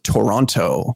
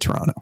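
First: Every T sound is pronounced clearly and crisply. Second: The T sounds are softened and run together. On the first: Someone not from the city is saying it. "the enunciation is very, very clear and concise" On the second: Someone from the city is saying it. "we just say Toronto. You just let those T's roll"

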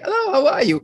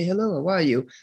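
First: It is said with great joy. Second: It is said in a formal way.

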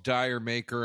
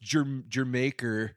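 First: The first part sounds like 'dire'. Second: The first part sounds like 'jer'. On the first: This is how most people say the title. The speaker calls it wrong. "Everybody calls" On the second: This is how devoted fans say the title. The speaker calls it right. "it's pronounced Jermaker"

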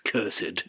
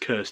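First: It has two syllables, stressing the second. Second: It is said as one plain syllable. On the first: "you get to put the emphasis on the second syllable there" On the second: "It's not just cursed"

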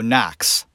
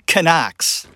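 First: The initial K is silent. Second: The initial K is clearly sounded. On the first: This is how the name is said in America. "That's how it's pronounced" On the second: This is how a foreign speaker reads the name. "the Italians pronounce Knox ... with actually pronouncing the K"

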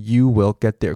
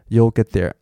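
First: The words you and will are said separately. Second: You and will merge into one syllable. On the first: Something is being specially emphasized. "它就是you will get there" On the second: Nothing in particular is being emphasized. "通常就是会变缩写you'll get there"

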